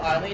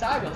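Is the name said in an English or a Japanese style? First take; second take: English; Japanese. First: The name is said in an English style. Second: The name is said in a Japanese style. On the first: The speaker calls it wrong. "the horrible English voice acting for Cleaver, I thought it's not Arlie" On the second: The speaker calls it right. "as in what the Japanese would probably pronounce it as"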